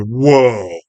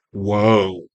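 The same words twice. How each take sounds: First: Drawn-out mock whoa of amazement; Spike. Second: Lower, drawn-out mock whoa; low-key amazement. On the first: Spike in the background, imitated awed exclamation. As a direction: stretch the whoa out, swelling then falling. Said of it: "Spike in the background going". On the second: Viewer reacting to the scene, understated low whoa. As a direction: let it fall away under your breath. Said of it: "And I'm like".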